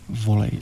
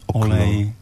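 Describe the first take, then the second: First: The word starts with an added v sound. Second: The word starts directly with the o vowel. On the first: This is how people from Prague say it. "jak ty Pražáci říkají" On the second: This is how people from Moravia say it. "A co ona říká?"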